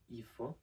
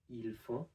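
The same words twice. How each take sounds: First: The L of 'ils' is dropped. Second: The L of 'ils' is pronounced. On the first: This is the quick, informal form. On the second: This is the careful, formal form.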